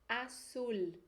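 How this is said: The z sounds like a strong s. "com a pronúncia da América, vai ter o som de S"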